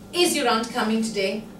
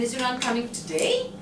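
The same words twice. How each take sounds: First: The stress falls on the verb coming. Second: The stress falls on the word today. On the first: The question is whether she is coming or not. "we're stressing the verb" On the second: The timing is surprising; tomorrow was expected. "Today? I didn't know. I thought it was tomorrow"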